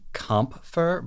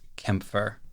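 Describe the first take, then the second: First: The first vowel is a plain 'ah' sound. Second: The first vowel is an umlaut vowel. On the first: The speaker calls it wrong. "it looks like it should be Kampfer" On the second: The speaker calls it right. "I'm pretty sure the actual pronunciation is Kämpfer"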